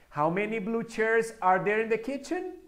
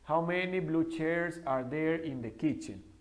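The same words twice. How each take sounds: First: The pitch starts soft and rises toward the end. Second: The pitch stays level like a statement. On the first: It sounds like a question. The speaker calls it right. "Una pregunta es, ... Empieza como un acento suave y va subiendo" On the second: It does not sound like a question. The speaker calls it wrong. "Porque hay gente que hace así. ... Eso no es una pregunta"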